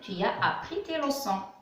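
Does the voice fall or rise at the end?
fall. The voice falls at the end, a statement.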